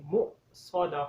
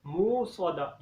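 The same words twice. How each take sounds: First: मुक़स्सदा with a sharp stop on the sakin hamza; with the jerk. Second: मुक़स्सदा said smoothly with no stop on the hamza; no jerk, smooth. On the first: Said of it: "झटका लगा के पढ़ेंगे". (मुक़स्सदा में झटका लगा कर) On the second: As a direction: show the mistake, gliding through मुक़स्सदा. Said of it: "simple पढ़ देते हैं". (मुक़स्सदा बिना झटके के, गलत) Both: Shown as a demonstration.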